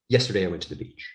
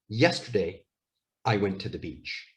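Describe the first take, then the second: First: There is no pause after yesterday. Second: There is a pause after yesterday. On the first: The speaker calls it wrong. "What we don't say is" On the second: The speaker calls it right. "the correct way to say this sentence is"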